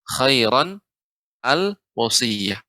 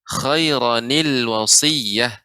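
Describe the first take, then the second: First: The words are read separately without linking. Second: The words are joined with a linking ni sound. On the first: "Di sini ada dua kata khairan al wasiyah" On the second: "Dibaca khairanil wasiyah"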